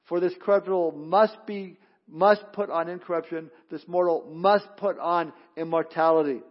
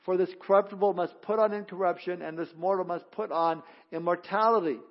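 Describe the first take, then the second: First: Each "must" pressed firm and heavy; stress on must. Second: Said in the usual way. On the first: Shown as a demonstration. Pastor rereading the verse, hammering "must". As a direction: land hard on every "must". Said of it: "It's emphatic". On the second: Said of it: "Notice that word "must".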